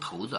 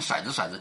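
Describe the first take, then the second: First: The first syllable is pronounced 'tou'. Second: The first syllable is pronounced 'shai'. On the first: This is the standard reading. The speaker calls it right. "其实是头子啊" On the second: This is the northern, Beijing-dialect reading. The speaker calls it wrong. "所以就有人念骰子"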